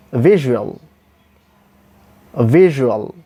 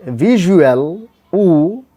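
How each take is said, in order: First: VISUAL with a short, lax u after the zh; short o sound. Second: VISUAL with a stretched, tense OO after the zh; wrong long oo. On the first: Teacher models the proper word, short o sound. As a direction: say "visual" with a quick light zhuh-ul ending. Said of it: "The sound would be like this". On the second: Teacher shows learners what to avoid, wrong long oo. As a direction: overdo the oo in "visual", slow and drawn out. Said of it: "this will not be pronounced properly". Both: Shown as a demonstration.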